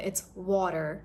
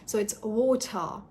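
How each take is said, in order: First: The T sounds like a soft D. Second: The T is a clear, true T. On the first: "And in American" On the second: "you're pronouncing the T as true T"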